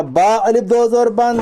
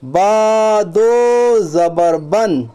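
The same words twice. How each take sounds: First: "الف" inserted between "با" and "دو زبر بن"; "با الف دو زبر بن" with the extra الف named; wrong reading example. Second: "با دو زبر بن" very slow, long vowels stretched; drawn-out "با" and "دو" in "با دو زبر بن"; straight correct reading. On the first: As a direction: say "با الف دو زبر بن" at talking speed. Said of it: "اس طرح نہیں پڑھیں گے". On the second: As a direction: chant "با دو زبر بن" evenly, no الف. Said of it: "سیدھا پڑھیں گے". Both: Shown as a demonstration.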